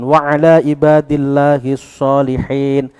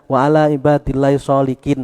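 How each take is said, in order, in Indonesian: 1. Kata terakhir memiliki bunyi h berdesah dari tenggorokan. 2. Kata terakhir memiliki bunyi k yang keras. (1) "Solihin pakai hak" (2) "dibaca wa ala ibadillahi sholikin malah ngono"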